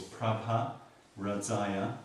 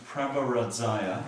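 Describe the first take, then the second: First: Prabha and Radzaya set apart with a pause between; separated words. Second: Said in the usual way. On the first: Shown as a demonstration. Teacher showing students the two separate parts, slow and careful. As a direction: split Prabha from Radzaya, each with a light rise. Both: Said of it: "two separate syllables".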